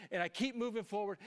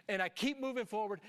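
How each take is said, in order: Both takes have the same delivery.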